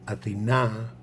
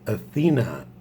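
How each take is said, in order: First: The stress is on the last syllable. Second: The stress is not on the last syllable. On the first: It names the goddess. "accent on the last A, is the goddess" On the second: It names the city. "in Greek means the city"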